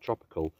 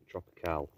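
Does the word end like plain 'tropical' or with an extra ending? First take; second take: plain tropical; extra ending. First: The word ends like the ordinary word tropical. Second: The word ends with an extra final sound. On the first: The speaker calls it wrong. "not tropical" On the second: The speaker calls it right. "spelled T-R-O-P-I-C-A-L-E. Tropical"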